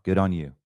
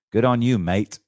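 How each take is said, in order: First: Said in the usual way. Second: Australian twang, louder; louder, in a put-on Australian accent; light Australian accent on a louder line; Aussie phrase. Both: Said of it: "as they say in the down south".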